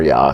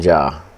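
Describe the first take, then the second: First: The name begins with a Y sound. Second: The name begins with a J sound.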